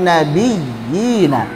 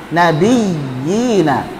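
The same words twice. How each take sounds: No difference in how they are said.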